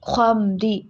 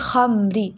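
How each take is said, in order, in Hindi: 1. kh की आवाज़ भारी और भरी हुई है। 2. kh की आवाज़ हल्की और पतली है। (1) "ख्वा को मोटा करना है" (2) "खमरी ऐसे नहीं"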